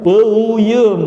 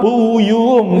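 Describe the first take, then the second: First: "Peyem" said with the Sundanese e, higher and louder; Sundanese reading. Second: "Puyum" read as spelled, with u vowels; literal reading. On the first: Teacher showing students how Sundanese say the word, Sundanese pronunciation. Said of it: "Bacanya gimana tulisan peyem?". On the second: Teacher contrasting the spelled reading with speech, spelling pronunciation. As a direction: read "Puyum" letter by letter, pitch up. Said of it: "Kalau dibaca kan apa?". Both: Shown as a demonstration.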